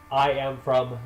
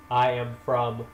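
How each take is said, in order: Both takes have the same delivery.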